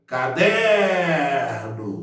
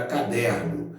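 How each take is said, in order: First: Caderno called out with a long drawn-out DER; calling the word. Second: Said in the usual way. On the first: Shown as a demonstration. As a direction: stretch the middle syllable of caderno, as if calling someone. (chamando "caderno", demorando bem no DER) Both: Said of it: "Então, eu chamo a palavra".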